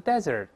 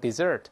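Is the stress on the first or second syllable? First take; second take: first; second. First: The stress is on the first syllable. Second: The stress is on the second syllable. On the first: It is used as a noun. "名词desert" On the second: It is used as a verb. "动词都能desert"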